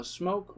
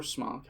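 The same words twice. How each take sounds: First: "Smoke" with a long o, as in oak; long-o pronunciation. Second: "Smock" with a short, open o; short-o pronunciation. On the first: Reviewer offers one way to say the brand, "Smoke" with long o. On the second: Reviewer offers the other way to say the brand, "Smock" rhyming with lock. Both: Shown as a demonstration. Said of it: "however you want to say it".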